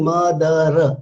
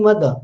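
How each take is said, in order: First: "mother" as MUH-duh-RUH, final r sounded; mother drawn into three syllables with an added "ruh"; final r pronounced. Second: "mother" as MUH-duh, no r at the end; two-syllable mother with a silent final r; final r dropped. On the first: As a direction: spell out the r at the end of mother. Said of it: "I am not saying mother". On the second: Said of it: "I am dropping the final r". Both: Shown as a demonstration.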